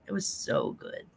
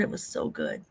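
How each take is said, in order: First: Soft whisper, savoring it. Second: Low, soft breathy whisper. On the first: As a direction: breathe it out softly. Whispered repeat. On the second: Whispered repeat, much lower. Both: Real, not acted.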